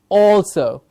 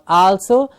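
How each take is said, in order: First: The first syllable is said with an 'or' sound. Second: The first syllable is said with an 'al' sound. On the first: The speaker calls it right. "but it is also" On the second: The speaker calls it wrong. "It is not also"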